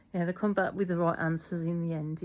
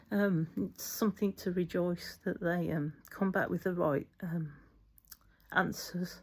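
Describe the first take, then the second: First: Said in the usual way. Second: Tearful wobble, last word whispered; fighting back tears; wobbly voice. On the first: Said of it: "get my wobbly voice off". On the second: Real, not acted. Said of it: "my wobbly voice".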